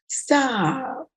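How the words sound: The word is said in a playful, unserious tone. The speaker does not really want the other person to stop. "the tone is not congruent"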